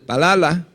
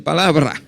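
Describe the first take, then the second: First: "palala" with the b and r dropped; wrong lisping pronunciation. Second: "palabra" with a clear b and r; correct pronunciation. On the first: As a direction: say "palala" as the mistaken form. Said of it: "en lugar de decir palala". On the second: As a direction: say "palabra" properly, every sound in place. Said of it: "puedo decir palabra". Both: Shown as a demonstration.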